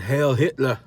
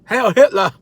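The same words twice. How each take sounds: First: Said in the usual way. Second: Loud, higher-pitched parody bark; hammed-up outraged repeat; mock shout. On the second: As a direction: shout it as an absurd exaggeration.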